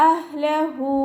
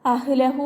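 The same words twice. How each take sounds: First: അഹ്ലഹു with a half-sukoon ha and no added vowel, higher recited tone; correct recitation. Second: അഹ്ലഹു with an extra vowel slipped in after the ha, as "ahilahu"; wrong pronunciation. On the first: Teacher gives students the right form, അഹ്ലഹു in recitation voice. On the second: Teacher shows students the mistake to avoid, അഹ്ലഹു with an added vowel. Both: Shown as a demonstration. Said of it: "അഹ്ലഹു എന്ന് ഉച്ചരിക്കരുത്".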